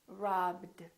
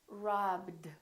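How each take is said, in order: First: The ending is said as a D sound. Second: The ending is said as a D sound.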